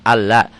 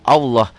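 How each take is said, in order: First: The L is light and thin. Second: The L is heavy and thick.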